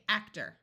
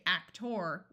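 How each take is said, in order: First: The final syllable sounds like "er". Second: The final syllable sounds like "or". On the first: The speaker calls it right. "it generally sounds just like E R as er" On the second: The speaker calls it wrong. "we don't say actor"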